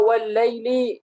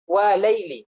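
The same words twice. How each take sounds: First: "wal laili" with a held double l; doubled lam. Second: "Wa laili" with a single l; uninformed misreading. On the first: Teacher shows the dropped lam, "wal laili" with doubled l. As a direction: hold the l joining "wal laili". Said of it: "lam yang dibuang". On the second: Teacher imitates those who don't know, "Wa laili" with single l. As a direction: split "Wa laili" after an open wa. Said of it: "kalau kita nggak tahu bacanya nanti apa". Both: Shown as a demonstration.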